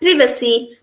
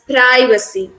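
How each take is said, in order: First: It is said with a British pronunciation. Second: It is said with an American pronunciation. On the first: "the British they pronounce the third word as privacy" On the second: "the Americans as privacy"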